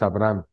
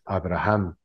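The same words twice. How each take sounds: First: The middle h sound is left out. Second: The middle h sounds like a throaty j. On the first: "la pronunciación correcta de Abraham sin H es" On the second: "pero con H es"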